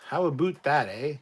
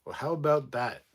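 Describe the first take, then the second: First: Hammed-up Canadian "aboot"; Canadian accent. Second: Said in the usual way. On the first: Shown as a demonstration. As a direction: put on a louder, higher Canadian lilt with "eh". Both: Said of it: "really recognizable Canadian accent".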